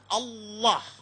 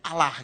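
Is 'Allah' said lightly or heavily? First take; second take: heavily; lightly. First: It is said heavily, Arabic style. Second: It is said lightly, Indonesian style.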